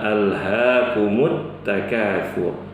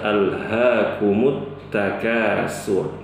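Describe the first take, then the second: First: The last word has a th sound. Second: The last word has a plain s sound. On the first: The speaker calls it right. "Yang benar adalah" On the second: The speaker calls it wrong. "Jangan dibaca"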